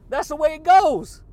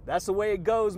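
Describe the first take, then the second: First: Louder and much higher, falling at the end; belted catchphrase. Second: Said in the usual way. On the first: Real, not acted. Vlogger belting his catchphrase to viewers. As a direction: belt it like a sign-off.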